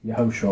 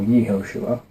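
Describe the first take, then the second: First: Yehoshua opened with a quick, neutral "yuh"; short first vowel. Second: Yehoshua opened with a clear "yee"; long first vowel. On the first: Teacher reading the common vowel-pointed version, Yehoshua said with "yuh". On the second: Teacher offering the alternative reading, Yehoshua said "yee-HO-shua". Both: Shown as a demonstration. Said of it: "is still pronounced vowel pointed to say".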